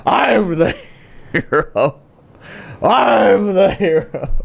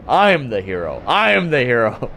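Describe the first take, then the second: First: Put-on slow slurred tough-guy drunk; drunk belligerent dude. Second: Said in the usual way. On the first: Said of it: "Sounds like some fucking drunk, belligerent dude". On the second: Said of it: "you whisper to yourself".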